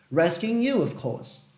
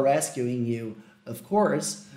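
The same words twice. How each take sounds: First: Ron's British "Rescuing you, of course", with "of course" trailing off; a light British accent on "Rescuing you"; British pronunciation. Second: "rescuing you, of course" in plain American English, with a rolled R in "course"; American pronunciation. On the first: Retold or imitated. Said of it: "Ele tem uma pronúncia mais britânica". (pronúncia britânica de "Rescuing you, of course") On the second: Shown as a demonstration. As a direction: say it the American way, lower. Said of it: "Eu quero falar". (pronúncia americana de "rescuing you, of course")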